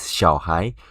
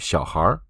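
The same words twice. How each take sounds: First: The word ends without an r-coloured sound. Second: The word ends with an r-coloured sound. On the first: "This is 小孩" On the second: "We can add a R at the end, then it become 小孩"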